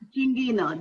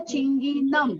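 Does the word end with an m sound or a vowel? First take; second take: vowel; m sound. First: The word ends on a vowel, with no m sound. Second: The word ends with a clear m sound. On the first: It follows the Marathi reading. "कई बच्चों ने ऊपर के दोनों शब्द सही पढ़े" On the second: It follows the Hindi and Sanskrit reading. "Hindi और संस्कृत व्याकरण के अनुसार हमें इसका वाचन क्या करना चाहिए था?"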